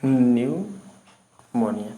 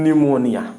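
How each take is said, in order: First: न्यूमोनिया said very slowly with clear nyoo; correct pronunciation. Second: निमोनिया said with short ni, as the error; wrong pronunciation. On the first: Teacher models correct न्यूमोनिया for students, slowly. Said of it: "इसमें हम न्यूमोनिया बोलते हैं". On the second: Teacher reads the misprinted निमोनिया aloud. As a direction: say निमोनिया as the misread version. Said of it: "निमोनिया ये गलती से लिख गया है". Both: Shown as a demonstration.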